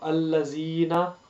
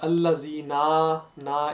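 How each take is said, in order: First: The final vowel is kept short. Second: The final vowel is drawn out long. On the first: The speaker calls it right. "that is correct" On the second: The speaker calls it wrong. "is incorrect because you don't need to prolong it"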